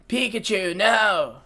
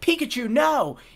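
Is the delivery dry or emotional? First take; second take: dry; emotional. First: It is said flat, raspy and without emotion. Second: It is said with normal emotion.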